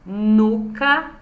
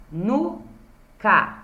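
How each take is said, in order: First: Said in the usual way. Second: Nuca split into nu and ca with a long gap; syllable by syllable. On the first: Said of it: "as palavras com duas sílabas". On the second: Shown as a demonstration. Teacher counting two syllables, nuca syllable by syllable. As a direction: say nuca as two separate beats. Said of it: "Duas sílabas".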